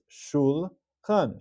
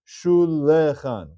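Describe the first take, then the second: First: The word is said in two syllables. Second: The word is said in three syllables. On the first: The speaker calls it right. "This is going to be read as shul khan. Shvanach. Two syllables" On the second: The speaker calls it wrong. "What would be the wrong way to read it? Shulechan. We don't read it that way"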